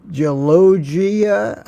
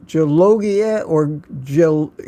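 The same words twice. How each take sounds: First: Very slow tentative Gelogia; careful second try. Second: Gelogia tried with a hard J, then cut off at Gel-; unsure first stab at Gelogia, slowed; first try at a name. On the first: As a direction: spell out Gelogia slowly like a guess, zh at both g's. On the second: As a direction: fumble Gelogia, start it like Jelogia and break off. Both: Shown as a demonstration. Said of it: "I don't know how to pronounce that".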